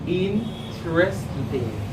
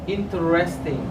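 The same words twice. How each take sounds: First: The word is said with three syllables. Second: The word is said with four syllables. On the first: The speaker calls it right. "I prefer to say interesting. This word has three syllables" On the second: The speaker calls it wrong. "Some pronounce this word as interesting"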